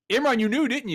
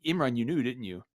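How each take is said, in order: First: Much higher, louder playful call; loud teasing call. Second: Said in the usual way. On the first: Real, not acted. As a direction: call him out loudly. Teasing a muted cohost.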